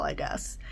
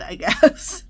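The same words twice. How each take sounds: First: Breathy whispered shrug; whispered aside. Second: Said in the usual way. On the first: Real, not acted. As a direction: whisper it off to the side. Hushed aside after good news.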